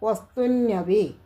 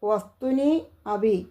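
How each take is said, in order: First: The two words merge into one word. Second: The two words are said separately.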